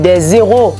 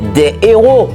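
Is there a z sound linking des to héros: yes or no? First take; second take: yes; no. First: Des and héros are joined with a z sound. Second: Des and héros are said without a linking z. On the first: The speaker calls it wrong. "on pas qu'à dire des zéros" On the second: The speaker calls it right. "si me dit des héros"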